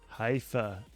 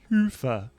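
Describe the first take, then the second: First: The name is said the anglicized way. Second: The name is said the European way.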